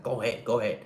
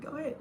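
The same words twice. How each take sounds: First: Hurried "Go ahead, go ahead," pushing the other driver; brisk impatient wave-through; rushing them along; rushed go ahead. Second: "Go ahead." very high and soft, sweetly friendly; cheerful soft "Go ahead." letting them pass; smiling go ahead. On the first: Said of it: "feels like you're rushing them". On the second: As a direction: coo "Go ahead." with a smile. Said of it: "Just be like". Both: Shown as a demonstration.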